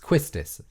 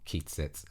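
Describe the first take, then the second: First: The name begins with a 'kwi' sound. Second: The name begins with a 'kee' sound. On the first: The speaker calls it right. "but it's Quistis" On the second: The speaker calls it wrong. "her name is not Keatsis"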